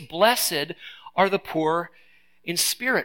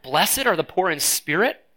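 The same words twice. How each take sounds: First: It is a flat statement, falling at the end. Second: It is a doubtful question, rising at the end.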